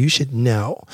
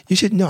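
First: Said in the usual way. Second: Mock upset partner. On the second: Man mimicking a partner's complaint to the men listening, high mock voice. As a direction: throw it back in a high put-on whine. Mocking women expecting mind-reading.

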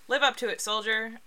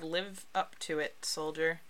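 First: Higher, louder rallying read; pep up the soldier like a recruiting ad; rousing poster slogan. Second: Said in the usual way. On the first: Shown as a demonstration. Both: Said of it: "So number one, we have".

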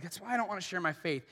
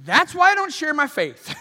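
First: Soft, fast, under-the-breath excuse; muttered excuse. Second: Loud, higher, fed-up cry; exasperated outburst. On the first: Believer admitting why they stay silent, quick soft mutter. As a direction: mumble it quickly, a little sheepish. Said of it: "You're like". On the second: Listener reacting to Paul's story, loud exasperated outburst. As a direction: throw it out like a frustrated believer. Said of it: "you're thinking". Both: Retold or imitated.

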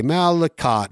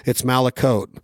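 First: Malicott said as MAL-i-cott, ending in a short cot, pitched high; the wrong try, Malicott with a hard -cott ending; Malicott, stress on the first syllable, ending in cot; wrong pronunciation. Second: Malicote said as MAL-i-coat, ending in a long coat; right pronunciation. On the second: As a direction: settle it firmly: Malicote, rhyming its end with boat. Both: Shown as a demonstration. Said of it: "I've pronounced it in every".

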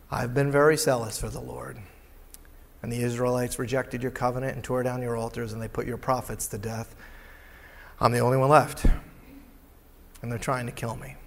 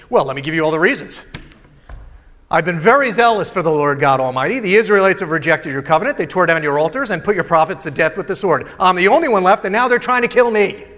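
First: Lower, softer, humbled repeat; humble regret. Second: Loud, fast, self-justifying rant; defensive complaint. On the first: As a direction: say it with humility and regret, much softer. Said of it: "tons of humility, regret". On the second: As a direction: rattle off every excuse loudly. Elijah's defensive reply to God. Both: Acted.

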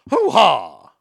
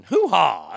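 First: Much louder, barked Hoo-ha! in a put-on movie voice; Scent of a Woman impression. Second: Movie catchphrase imitation. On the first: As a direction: belt out the Hoo-ha! like the blind colonel from the film. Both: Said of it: "as they would say in Sin of a Woman".

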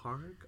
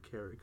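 First: "Carrick" with an open "ah" first vowel, questioning; other pronunciation of Carrick. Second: "Carrick" with an "eh" first vowel, like "KERR-ick"; own pronunciation of Carrick. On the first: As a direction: say "Carrick" as "CAR-ick", with a rise. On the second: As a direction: say "Carrick" to rhyme with "Derrick". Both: Shown as a demonstration. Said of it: "I pronounce it Carrick".

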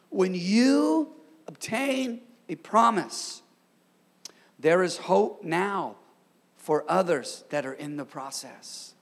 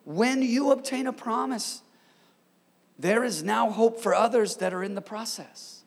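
First: Slow, word by word, leaning on "obtain"; slow emphatic repeat. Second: Said in the usual way. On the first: Real, not acted. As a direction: draw out "When you" and pause between phrases. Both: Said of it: "I'm gonna say it again".

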